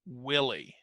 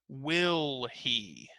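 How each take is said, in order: First: Run together as one word, h dropped. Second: Said slowly as two separate words with h. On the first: "when we link them together" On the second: "let's say it slowly"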